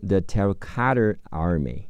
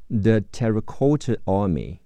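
First: "Terracotta" with a flapped, r-colored t: terra-cadder, "Army" with a strong American r; American pronunciation. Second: Said in the usual way. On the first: Shown as a demonstration. Teacher demonstrating for students, American pronunciation of "The Terracotta Army". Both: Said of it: "美式发音是".

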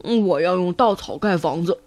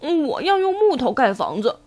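First: Low-pitched piglet voice; eldest pig brother. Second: Lightly voiced middle piglet; second pig brother. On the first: Acted. Eldest pig telling two brothers, low voice. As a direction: announce it in a low big-brother voice. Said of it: "猪大哥对两个弟弟说". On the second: Second pig telling little brother, lightly characterised voice. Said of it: "猪二哥对猪小弟说".

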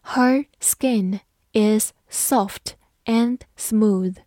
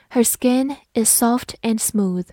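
First: Slow, deliberate sentence model; slow teacher read-aloud. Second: Said in the usual way. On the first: Shown as a demonstration. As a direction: read it slowly word by word. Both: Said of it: "好，我们慢慢来读".

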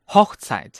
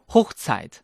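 First: "Hochzeit" with short open o, like hokh-tsait. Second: "Hochzeit" with long closed o, like hohch-tsait; wrong closed O. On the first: Teacher corrects the learner, "Hochzeit" with short open O. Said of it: "短音开口的O". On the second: Teacher plays over-eager student, "Hochzeit" with closed O. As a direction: say "Hochzeit" with a small-mouthed long O. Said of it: "错". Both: Shown as a demonstration.

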